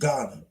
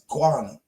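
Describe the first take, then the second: First: It begins with a plain 'ga' sound. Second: It begins with a rounded 'gwa' sound. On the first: This is the usual everyday pronunciation. The speaker calls it wrong. "we just say Ghana" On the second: This is the original pronunciation. The speaker calls it right. "it's really pronounced Ghana, guana"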